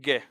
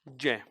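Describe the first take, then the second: First: The letter starts with a hard g sound. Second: The letter starts with a j-like sound. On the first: The speaker calls it wrong. "इसको ग बोलते हैं ग। ये गलत उच्चारण है।" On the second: The speaker calls it right. "इसका उच्चारण होता है क्या? ज।"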